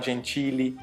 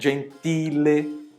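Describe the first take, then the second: First: The t is softened into a ch-like sound. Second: The t is a plain, crisp t sound. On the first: The speaker calls it wrong. "não falar gentile" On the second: The speaker calls it right. "O som do T normal mesmo. Eu tenho que falar"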